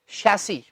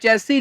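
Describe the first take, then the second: First: The word begins with an 'sh' sound. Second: The word begins with a 'ch' sound. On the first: The speaker calls it right. "लेकिन ये शै से start होता है" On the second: The speaker calls it wrong. "हम तो इसे ज्यादातर बोल देते हैं चैसी"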